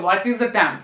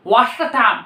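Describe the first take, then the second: First: Said in the usual way. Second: "What's the time?" run together in one breath; short form. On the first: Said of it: "Normally क्या बोलते हैं". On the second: Shown as a demonstration. Teacher giving the shortcut form of the time question. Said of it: "shortcut में बोला जाए".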